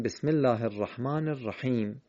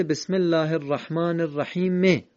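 First: الرحیم closing on a bare m, "rahim"; silent ending on الرحیم. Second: الرحیم ending in an audible short e, "rahime"; final vowel voiced on الرحیم. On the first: Teacher showing how it is said, الرحیم ending on bare m. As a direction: stop on the m of الرحیم with no vowel after it. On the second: Teacher showing the written form, final short e voiced on الرحیم. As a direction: read الرحیم as written, sounding the e after the m. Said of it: "در خط قرآن نوشته". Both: Shown as a demonstration.

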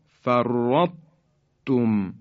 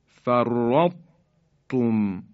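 First: فرطتم very slow, heavy ط before ت; فرطتم slow with thick ط; careful recitation. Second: فرطتم extremely slow with a doubled ت; فرطتم drawn out and doubled; careful recitation. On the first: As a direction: draw out فرطتم in recitation style. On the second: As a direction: recite فرطتم as færːatum, ط kept thick. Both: Shown as a demonstration. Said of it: "اینطور تلفظ کنیم".

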